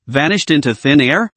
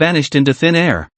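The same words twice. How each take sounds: First: "Vanished into thin air?" with the pitch rising at the end; questioning echo. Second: Said in the usual way. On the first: Acted. Detective doubts the director's report, questioning echo rising on "air".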